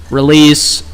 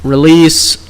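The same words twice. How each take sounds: The two takes are said the same way.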